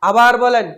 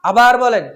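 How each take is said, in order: The two takes are said the same way.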